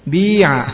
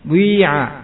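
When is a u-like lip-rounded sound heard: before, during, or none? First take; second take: none; during. First: The vowel is pure with no u-like sound. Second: A u-like rounded sound blends into the vowel. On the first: "enggak ada suara u-nya berarti ya" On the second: "berarti yang pertama ada suaranya ya"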